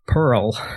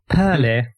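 First: The word is said in an American accent. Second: The word is said in a British accent. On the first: "That was pretty good" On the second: "I love how you say Perly"

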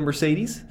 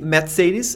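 First: The name is pronounced the English way. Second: The name is pronounced the German way. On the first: "instead of" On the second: "But shouldn't we do the same with all the other German brands then?"

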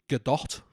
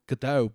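First: The final T sound is clearly pronounced. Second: The final T sound is dropped. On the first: The speaker calls it right. "but it is Gal Gadot ... there's a hard T on it" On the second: The speaker calls it wrong. "I call her Gal Gadot"

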